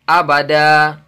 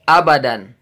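First: The word ends with a long vowel, no n. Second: The word ends with a short vowel and n. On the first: The reader stops at this word. "kalau kita waqaf atau berhenti menjadi abada. Jadi panjang dua harokat" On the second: The reader continues without stopping.

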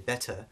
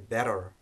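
First: The middle consonant is a full T sound. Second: The middle consonant is a quick tongue flap. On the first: "in British English we would say better and use the T as a standard T" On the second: "In American English, you might hear better, ra. So that you can hear that flap"

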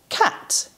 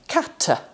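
First: The word is blended smoothly with no extra vowels. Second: Extra vowels are inserted after the consonants. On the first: The speaker calls it right. "they're able to say cat" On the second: The speaker calls it wrong. "rather than kata"

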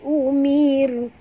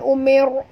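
First: The r sound is light and thin. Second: The r sound is heavy and thick. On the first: The speaker calls it right. "Tapi umir. Mir. Ya, tipis" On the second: The speaker calls it wrong. "Jangan tebal, ya. Bukan umir"

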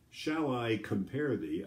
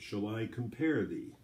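First: The stress does not fall on every second syllable. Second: The stress falls on every second syllable. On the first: The speaker calls it wrong. "I don't say" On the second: The speaker calls it right. "I say, ... It's the way it's meant to be written"

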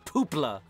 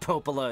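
First: The name is squeezed into two syllables. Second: The name is said with three syllables. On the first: This is how it was misread aloud. The speaker calls it wrong. "I read Popola as Poopla" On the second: This is the name as written. The speaker calls it right. "I read Popola as Poopla"

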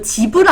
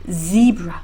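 First: It is said with Korean-style sounds. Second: It is said with English sounds, buzzing z. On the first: The speaker calls it wrong. "이거 지브라 아니고요" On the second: The speaker calls it right. "zebra, zebra"

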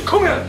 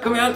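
First: It sounds confident and energetic. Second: It sounds awkward and hesitant.

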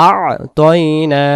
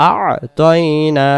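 Both takes have the same delivery.

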